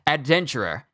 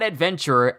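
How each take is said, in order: First: The middle sounds like the word 'denture'. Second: The middle sounds like the word 'venture'. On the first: The speaker calls it right. "Like dentures" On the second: The speaker calls it wrong. "Not adventurer"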